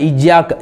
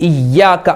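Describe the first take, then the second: No difference in how they are said.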